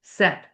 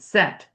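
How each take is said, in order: The two takes are said the same way.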